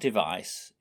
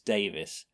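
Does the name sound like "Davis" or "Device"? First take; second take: Device; Davis. First: The name is said like the word device. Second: The name is said like the name Davis. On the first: The speaker calls it wrong. "It's not Device" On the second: The speaker calls it right. "it's Davis"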